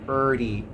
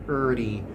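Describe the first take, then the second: Both takes have the same delivery.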